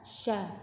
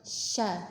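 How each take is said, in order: First: The sh goes straight into the vowel. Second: The same.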